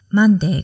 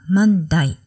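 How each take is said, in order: First: The word ends with a 'day' sound. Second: The word ends with a 'die' sound. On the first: This is the usual pronunciation. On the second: This is how Australians say it.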